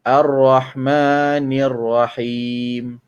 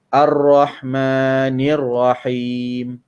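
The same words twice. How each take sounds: No difference in how they are said.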